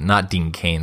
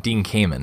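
First: "Cain" said as one syllable, like "cane"; "Cain" short, no second syllable; Dean Cain. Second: "Kamen" said KAY-men, stress on the first syllable; Dean Kamen. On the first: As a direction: contrast "Dean Cain" with Kamen. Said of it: "That's an actor". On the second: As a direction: say "Dean Kamen" as the correct name. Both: Shown as a demonstration.

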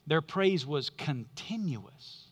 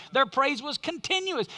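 First: Slow, weighty "Their praise was continuous"; stressed heading. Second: Said in the usual way. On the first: Shown as a demonstration. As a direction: lay weight on "praise" and let it settle.

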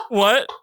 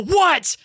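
First: Smaller, let-down question after the tirade; stunned deflation. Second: High, irritated retold retort; exasperated snap back. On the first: Retold or imitated. Driver told he glued his window shut, stunned. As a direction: ask it in disbelief, the fight gone. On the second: Driver answering his interrupting partner, exasperated. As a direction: snap it back, pitch shooting up.

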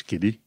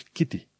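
First: "Kitty" said as "kiddy"; American D sound. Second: "Kitty" with a true T in the middle; clear T. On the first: Teacher showing what to avoid, "Kitty" as kiddy. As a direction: turn the T of "Kitty" into D. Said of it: "la american se zice Kitty". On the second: Teacher correcting learners, "Kitty" with clear T. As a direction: hit the T in "Kitty". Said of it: "Pentru T zici Kitty". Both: Shown as a demonstration.

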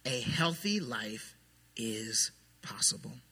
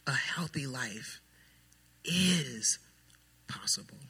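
First: A healthy life, low and slow, each word weighed; quiet, slow declaration. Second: Healthy life slow and soft, possible whispered; dropping to a whisper. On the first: Pastor stating truth number three softly and slowly to the church. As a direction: lay it down gently and slowly. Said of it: "Truth number three is this". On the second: Pastor repeating truth three to the church, fading to a whisper. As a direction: let it fall away into a whisper. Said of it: "but it's so important". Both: Shown as a demonstration.

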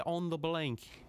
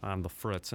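First: Higher, mock British accent. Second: Said in the usual way. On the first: Shown as a demonstration. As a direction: say it like a Brit, lightly put on. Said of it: "sue me if that's an incorrect accent". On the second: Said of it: "A popular American term".

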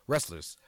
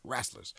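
First: Said in the usual way. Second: "Wrestlers" with the vowel of rash, ræslers; boss's way of saying it. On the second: Retold or imitated. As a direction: say "Wrestlers" the way the boss does, ræslers. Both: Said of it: "that's how he says it".

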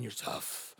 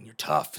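First: Whispered aside. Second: Tough guy. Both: Retold or imitated. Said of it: "You're on top of the world".

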